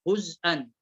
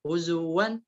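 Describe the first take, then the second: First: هزءا with a glottal stop; hamza added in هزءا. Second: هزوا with a w glide; waw without hamza in هزوا. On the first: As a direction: break after the z with hamza in هزءا. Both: Shown as a demonstration. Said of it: "إضافة همز".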